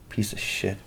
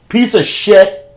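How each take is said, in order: First: Much softer, under the breath; softly muttered jab; quiet insult. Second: Much higher and loud yell of "Piece of shit!"; playful furious shout; shouted insult. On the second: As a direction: let it fly at Luke through the door. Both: Real, not acted. Muttered, then shouted at Luke.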